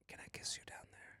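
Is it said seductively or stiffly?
seductively. It is said in a sultry, seductive tone.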